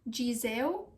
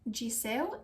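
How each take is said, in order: First: The middle consonant is a z sound. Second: The middle consonant is an s sound. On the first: "it's not Gizeu" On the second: "it's not Giseu"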